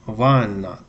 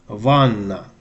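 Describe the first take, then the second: Both takes have the same delivery.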